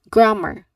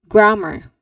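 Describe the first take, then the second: Both takes have the same delivery.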